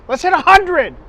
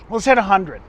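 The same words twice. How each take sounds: First: Repeated higher and louder, fired up; rally the viewers with a cheer; excited. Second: Said in the usual way. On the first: Real, not acted.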